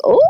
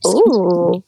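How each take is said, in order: First: Short ooh shooting up in pitch; a quick, rising sound of interest; intrigued ooh. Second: Drawn-out ooh, swooping up then falling; lingering ooh. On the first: Cohost replaying her mixed film reaction, intrigued. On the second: Cohost replaying her other film reaction, lingering. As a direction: let the ooh arc and sink slowly. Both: Retold or imitated.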